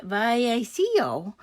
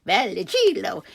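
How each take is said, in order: First: Vallecillo said the Spanish way, double L as a Y sound: "vai-ai-SEE-oh"; "Vallecillo" in Spanish, no L sound, slow and careful; Spanish pronunciation. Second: Vallecillo said the Italian way, with the L sounded and a "shee" in the middle: "val-eh-SHEE-loh"; "Vallecillo" as an Italian name, L kept, "shee-loh" at the end; Italian pronunciation. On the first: Guessing an author's surname the Spanish way, careful pronunciation. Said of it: "if I'm Spanish". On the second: Trying the Italian version of the surname, careful pronunciation. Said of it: "If it's Italian".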